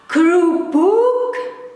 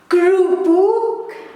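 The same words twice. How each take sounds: The two takes are said the same way.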